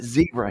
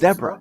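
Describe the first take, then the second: First: The word is said with the American pronunciation. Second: The word is said with a non-American pronunciation. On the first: The speaker calls it wrong. "we pronounce it zebra here" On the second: The speaker calls it right. "It's zebra"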